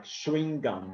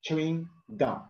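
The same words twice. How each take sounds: First: "chewing gum" starting with a soft sh-like ch; British-style pronunciation. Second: "chewing gum" with a firm ch, words set apart; teacher's model "chewing gum" with crisp ch; normal pronunciation. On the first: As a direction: say "chewing gum" as "shewing gum", run together. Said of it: "the British people, they always call it like". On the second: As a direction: say "chewing gum" carefully, starting on a hard tch. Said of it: "normally it's not like that". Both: Shown as a demonstration.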